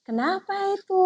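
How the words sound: The question sounds soft and gentle. It is addressed to a small child. "saya ekspresi saya dengan nada saya kan beda"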